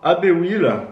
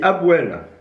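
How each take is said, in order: First: It is said with a vowel between ab and wheel. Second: It is said as two short joined syllables. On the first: The speaker calls it wrong. "ça se dit pas Abewheel" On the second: The speaker calls it right. "Ça se dit Abwell"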